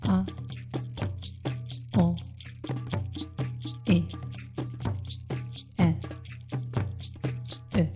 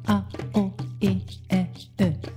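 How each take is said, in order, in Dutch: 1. De klinkers worden langzaam uitgesproken. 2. De klinkers worden snel uitgesproken. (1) "In het langzamere tempo" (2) "En dan gaan we hem nu versnellen"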